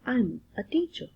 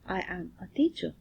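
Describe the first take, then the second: First: The verb is shortened and joined to the pronoun. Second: The verb is said as a separate full word. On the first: "When English is spoken, contractions are used" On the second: "full form is used"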